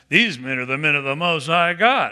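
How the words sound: It is said in a scoffing, mocking tone. She is ridiculing the men. "Or was she going, ha"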